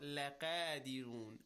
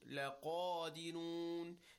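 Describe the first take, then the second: First: The q is light and thin. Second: The q is heavy and deep. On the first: The speaker calls it wrong. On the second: The speaker calls it right.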